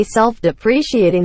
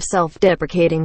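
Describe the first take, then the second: First: SELF-DEPRECIATING with pree-shee in the middle. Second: SELF-DEPRECATING stressed on DEP, with k. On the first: Retold or imitated. Complaining about others' error, SELF-DEPRECIATING with shee. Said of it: "when they say self-depreciating humor". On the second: Shown as a demonstration. Correcting others' error, SELF-DEPRECATING with a k. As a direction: say SELF-DEPRECATING, ending kay-ting. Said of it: "instead of self-deprecating humor".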